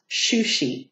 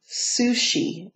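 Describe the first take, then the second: First: The name begins with an 'sh' sound. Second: The name begins with an 's' sound. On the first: The speaker calls it wrong. "not Shushi, like I pronounced it" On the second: The speaker calls it right. "her name is Sushi"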